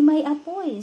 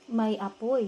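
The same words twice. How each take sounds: First: It is read with strong emotion. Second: It is read flatly, without emotion.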